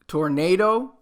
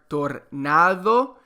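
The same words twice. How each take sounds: First: It is pronounced with English sounds. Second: It is pronounced with Spanish sounds. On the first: "it's just pronounced differently" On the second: "You use the pronunciation of the Spanish uh, letters rather than the English letters"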